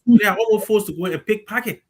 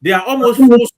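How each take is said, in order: First: Said in the usual way. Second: Forced punched much louder and falling; almost forced, with forced slammed loud; stress on forced. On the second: Real, not acted. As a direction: hit the word forced hard, then drop.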